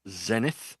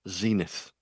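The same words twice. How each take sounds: First: It is said in a British accent. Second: It is said in an American accent.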